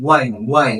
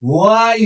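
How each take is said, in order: First: "Why" said as "wai", lower; silent H. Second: "why" as a long "hwaaai"; H wrongly pronounced. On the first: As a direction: say "Why" short, with a plain w. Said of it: "এটা কি হবে?". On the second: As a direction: stretch "why" out with an h before the w. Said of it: "why হবে না". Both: Shown as a demonstration.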